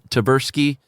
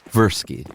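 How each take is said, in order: First: The name starts with a clear, hard T sound. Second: The name starts without the T sound. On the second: "doing more of one of those Versky"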